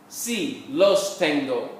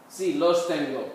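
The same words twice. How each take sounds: First: Slow, word-by-word Spanish; slow model answer. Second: Said in the usual way. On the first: Shown as a demonstration. Teacher answering the practice question for students, slowly, word by word. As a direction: separate the words for learners, unhurried.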